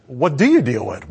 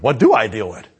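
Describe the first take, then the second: First: YOU pitched up as the point; stress on YOU. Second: I punched louder than the rest; stress on I. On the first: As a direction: hit "you" in the question. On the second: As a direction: hit "I" in the question. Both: Shown as a demonstration. Question turned from you to I.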